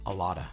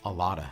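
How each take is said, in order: First: The words blend into one reduced word. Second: The words blend into one reduced word.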